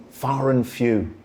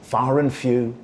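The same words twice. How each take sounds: The two takes are said the same way.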